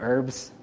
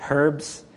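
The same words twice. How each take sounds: First: The word begins with a silent h. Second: The word begins with a pronounced h sound. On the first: This is how the speaker says it. The speaker calls it right. "instead of herbs" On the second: This is how another person says it. The speaker calls it wrong. "He says herbs"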